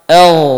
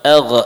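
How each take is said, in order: First: The final gh flows smoothly without a bounce. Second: The final gh ends with a bouncing release. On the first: The speaker calls it right. "Kita baca sukun" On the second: The speaker calls it wrong.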